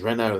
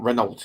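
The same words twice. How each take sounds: First: The final T is silent. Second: The final T is pronounced. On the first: The speaker calls it right. "they don't pronounce the E T, do they, in French? Or the T" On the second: The speaker calls it wrong. "It's not Renault"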